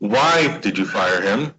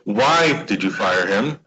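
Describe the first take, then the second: First: The stress falls on the word why. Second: The same.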